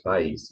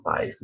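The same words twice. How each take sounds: First: País stressed on the i, paÍS; correct stress. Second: País stressed on pa, as PAis; wrong stress. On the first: Teacher giving students the correct stress on país. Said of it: "it's país". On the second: Teacher showing the wrong stress on país to students. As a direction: say país with stress on the first syllable. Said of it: "it's not país". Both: Shown as a demonstration.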